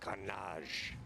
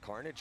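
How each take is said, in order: First: The name is said with French pronunciation. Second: The name is said with English pronunciation. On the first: The speaker calls it right. "They want me to say it Carnage" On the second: The speaker calls it wrong. "with the English pronunciation"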